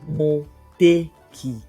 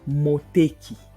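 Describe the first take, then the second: First: It is said slowly, broken into parts. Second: It is said at an ordinary pace. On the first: "I'll just break it down" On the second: "I'll just say it normally"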